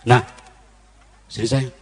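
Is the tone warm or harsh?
harsh. It is said harshly, without a smile.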